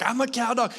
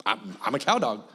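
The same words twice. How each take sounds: First: Higher, eager, pleased with itself; a dog that thinks it's doing the job, voice pitched up; excited dog voice. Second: Lower, proud little dog declaring itself; a dog bragging it's a real cow dog, voice pitched lower. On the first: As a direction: play the dog, bright and eager. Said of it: "she's excited and she's like". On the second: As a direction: play the dog, chest puffed out and low. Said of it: "She's like". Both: Retold or imitated.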